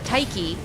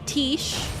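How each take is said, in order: First: The name is two syllables, like 'tie-kee'. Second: The name is one syllable, like 'tish'. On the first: It follows the Greek pronunciation. "it's probably Taiki based on the pronunciation of like Greek" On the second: It is the speaker's habitual way of saying it. "I always say Tish because I'm, well, I'm used to it"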